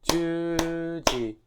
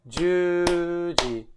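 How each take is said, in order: No difference in how they are said.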